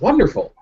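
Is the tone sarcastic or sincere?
sincere. It is said in a sincere, pleased tone. The speaker genuinely likes the idea. "He's not saying like that sounds wonderful"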